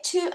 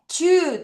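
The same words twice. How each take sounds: First: To said short and quick; short vowel in to. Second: Too with a long, drawn-out oo; long vowel in too. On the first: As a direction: keep the vowel of to brief. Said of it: "티오 짧게". (to를 짧게 끊어서) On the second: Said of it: "티오오 길게". (too를 길게 끌어서) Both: Shown as a demonstration.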